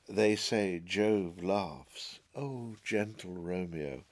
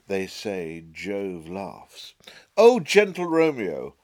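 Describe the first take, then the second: First: The pitch stays level across both halves. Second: The pitch shifts between the two halves. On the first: The speaker calls it right. "The tonality, the pitch, is pretty much the same" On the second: The speaker calls it wrong.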